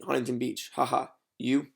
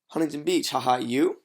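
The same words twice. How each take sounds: First: The pitch stays level on the final word. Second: The pitch rises on the final word. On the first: It sounds confident and unbothered. The speaker calls it right. "It's just neutral" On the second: It sounds like an eager, needy question. The speaker calls it wrong. "Tonality goes up"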